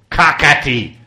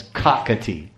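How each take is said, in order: First: KAKATI punched loud and higher, guttural k sounds; guttural emphasis. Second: Said in the usual way. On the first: Shown as a demonstration. Showing listeners how old the monkey's name sounds, loud guttural KAKATI. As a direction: throw out KAKATI with hard, throaty k's. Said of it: "all gutturals".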